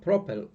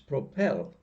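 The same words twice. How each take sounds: First: The stress is on the first syllable. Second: The stress is on the second syllable. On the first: The speaker calls it wrong. "it's not propel" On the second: The speaker calls it right. "the stress falls on the last syllable"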